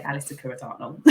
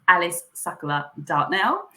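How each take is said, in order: First: Alice Sakura Dartnell casually, with an English R in Sakura; everyday Southern English pronunciation. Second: Alice Sakura Dartnell carefully, Sakura as "Sakula"; proper pronunciation. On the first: Guest showing how she says it, casual English Alice Sakura Dartnell. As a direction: say Alice Sakura Dartnell offhand, English R, swallowed last syllable. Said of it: "but I say". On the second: Guest giving her real name, careful Alice Sakura Dartnell as "Sakula". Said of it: "my real name is". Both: Shown as a demonstration.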